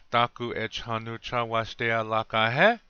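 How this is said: It has an English-style sentence melody.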